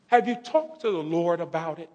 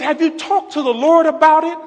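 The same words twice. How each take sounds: First: Soft, unforced motherly question; hushed, measured query; gentle retold question. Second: High-pitched insistent motherly question; raised, urgent repeat; emphatic retold question. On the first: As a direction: imitate Mom asking it quietly. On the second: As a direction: imitate Mom pressing, pitched way up.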